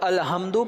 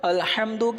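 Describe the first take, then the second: First: The h is a plain light sound. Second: The h is a strong throaty sound. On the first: It means weaknesses. The speaker calls it wrong. "अब अलहम्दु पढ़ेंगे तो माने में कितना फसाद आ गया" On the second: It means praise. The speaker calls it right. "अल्हम्दु की जगह"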